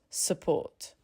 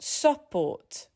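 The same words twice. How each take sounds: First: The first vowel is reduced to a schwa. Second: The first vowel is said as a full vowel. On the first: The speaker calls it right. "The first syllable reduces to almost nothing" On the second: The speaker calls it wrong. "not support"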